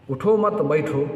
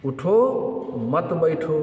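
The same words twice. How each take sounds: First: उठो मत grouped as one, then बैठो; changed phrasing. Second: उठो alone, long break, then मत बैठो; pause after उठो. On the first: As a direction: run उठो straight into मत, making बैठो the order. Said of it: "अंदाज बदल देंगे बोलने का". (उठो मत साथ में, फिर बैठो) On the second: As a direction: separate the order उठो from the ban मत बैठो with a clear stop. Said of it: "इस पे कहा जा रहा है". (उठो के बाद ठहराव, फिर मत बैठो) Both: Shown as a demonstration.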